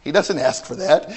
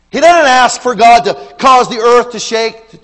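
First: Said in the usual way. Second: Doesn't punched high and loud; stress on doesn't. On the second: Shown as a demonstration. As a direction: hit doesn't hard and loud. Repeats with force.

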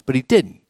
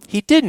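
First: Said in the usual way. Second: "didn't" lifted high and hit hard; emphatic repeat. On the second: Real, not acted. Preacher stressing to his congregation that Jesus didn't, emphatic. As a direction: insist on "didn't" with a sharp high push.

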